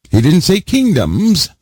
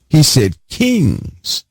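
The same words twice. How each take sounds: First: "kingdoms" stressed and pitched up, as the wrong word; emphatic stress on "kingdoms" in a firm denial. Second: "kings" drawn out slowly with heavy weight; slow down and hammer "kings"; deliberate, weighty stress on "kings". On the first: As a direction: lean hard on "kingdoms" to reject it. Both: Shown as a demonstration. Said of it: "the reason I'm giving this emphasis".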